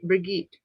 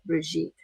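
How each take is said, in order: First: The name starts with a hard g sound. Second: The name starts with a soft zh sound. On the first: The speaker calls it wrong. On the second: The speaker calls it right. "There we go"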